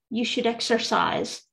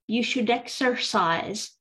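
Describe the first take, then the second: No difference in how they are said.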